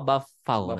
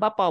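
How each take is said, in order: First: The middle consonant is an f sound. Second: The middle consonant is a p sound. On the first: The speaker calls it right. "bafau nanti" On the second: The speaker calls it wrong. "jangan bapau"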